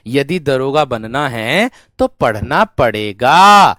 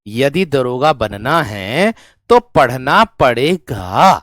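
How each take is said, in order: Both takes have the same delivery.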